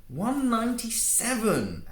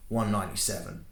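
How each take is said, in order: First: High, slow, overemphasized mockery; mocking. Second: Said in the usual way. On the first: Antoine parroting Male's age back at him mockingly. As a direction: sneer it back, stretching every word. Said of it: "Antoine mocked, overemphasizing words".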